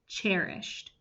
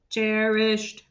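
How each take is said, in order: First: It is said in a plain, ordinary voice. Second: It is said in a flat, mechanical robot voice. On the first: "say the word cherished with me" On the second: "robot voice"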